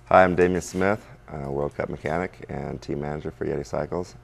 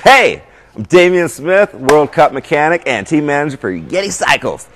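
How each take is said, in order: First: It is said with plain, ordinary energy. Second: It is said with lively, jazzed-up energy.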